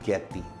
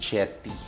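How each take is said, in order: First: The name begins with a hard G sound. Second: The name begins with a soft J sound. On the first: This is how the speaker's own name is said. "ang ginagamit na pronunciation sa akin ay Ge Getty" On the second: This is how it is said in Italy. "sa Italy, ang pronunciation ay Jetty"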